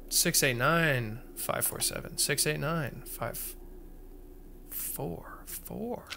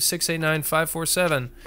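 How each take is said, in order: First: Muttered code. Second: Said in the usual way. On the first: Shown as a demonstration. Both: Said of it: "repeats code to self".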